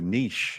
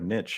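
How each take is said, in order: First: It is said to rhyme with leash. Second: It is said to rhyme with pitch. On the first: This is the more refined pronunciation. "change this to niche" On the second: This is the everyday pronunciation. "instead of niche"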